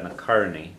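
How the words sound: The plural ending ends in an 'ee' sound.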